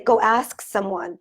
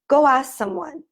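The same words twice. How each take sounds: First: The k is pronounced and the words stay separate. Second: The k is dropped and the words run together. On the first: "that isn't how native English speakers speak English" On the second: "That's how we would pronounce it"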